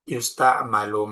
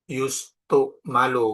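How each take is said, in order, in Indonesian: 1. Vokal setelah t adalah 'a'. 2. Vokal setelah t adalah 'u'. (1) "Taknya tetap dibaca fathah" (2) "nggak usah yustu malu"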